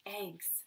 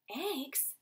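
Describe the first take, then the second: First: Said in the usual way. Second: Incredulous rising question; disbelieving question. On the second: Acted. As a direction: echo it in disbelief. Father echoes in disbelief.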